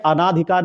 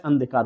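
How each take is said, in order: First: अनाधिकार with long "naa"; wrong long vowel. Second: अंधिकार said "an-dhikaar"; no long aa after the n in अंधिकार; correct short form. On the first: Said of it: "नहीं होता है". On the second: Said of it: "होता है". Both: Shown as a demonstration.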